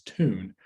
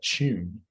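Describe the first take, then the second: First: The t is followed directly by the vowel. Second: The t is said like a ch sound. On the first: "the standard U S thing now" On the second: "fully affricated"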